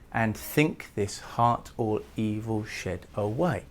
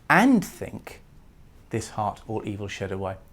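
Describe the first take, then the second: First: The stress follows a regular alternating iambic beat. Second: The stress breaks from a regular iambic beat. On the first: The speaker calls it wrong. "The iambic stress which it falls on would normally be" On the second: The speaker calls it right. "It needs to be read as"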